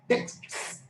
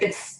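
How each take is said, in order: First: The whole consonant cluster at the end is pronounced. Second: The final consonant cluster is reduced to fewer sounds. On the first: "This is very difficult to pronounce it" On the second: "in normal speech, we say text. ... cluster simplification"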